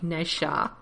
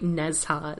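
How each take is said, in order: First: The name follows the original Chinese pronunciation. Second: The name is read plainly, as English spelling suggests. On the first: The speaker calls it right. "It's like Nesha" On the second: The speaker calls it wrong. "not just like straight Nezha"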